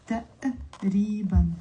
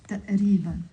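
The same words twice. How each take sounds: First: "تقريبًا" broken by a glottal pause after the first syllable; pause mid-word. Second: "تقريبًا" as one word with a brief catch in the middle; joined, brief catch. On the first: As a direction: split "تقريبًا" as ta, stop, riban. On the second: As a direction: say "تقريبًا" connected, keeping the short glottal stop. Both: Shown as a demonstration. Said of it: "pause in the middle".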